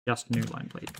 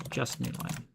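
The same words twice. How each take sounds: First: Spelled-out request, said plainly; dictating. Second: Muttered repeat. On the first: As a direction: dictate the instruction clearly. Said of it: "dictating a request to the assistant". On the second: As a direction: mutter it under your breath. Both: Acted.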